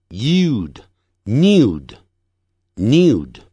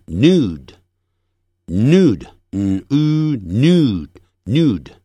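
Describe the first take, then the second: First: Nude as "nyood", y glide; slow British "nude" with a yoo sound; British pronunciation. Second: Nude as "nood", no glide; slow American "nude" with plain oo; American pronunciation. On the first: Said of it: "英式发音". (英式发音，nude带一音) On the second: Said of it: "美式发音". (美式发音，nude不带一音) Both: Shown as a demonstration.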